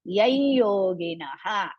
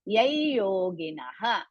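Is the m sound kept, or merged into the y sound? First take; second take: merged; merged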